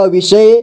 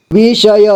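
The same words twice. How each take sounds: First: Said in the usual way. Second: विषय as वि-ष-य; syllable by syllable. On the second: Shown as a demonstration. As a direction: sound out विषय in three parts. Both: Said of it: "एक ही बार में पढ़ेंगे".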